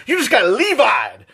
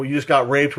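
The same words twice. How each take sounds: First: 1 hammed-up gamer taunt. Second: Said in the usual way. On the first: Shown as a demonstration. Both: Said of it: "you can replace".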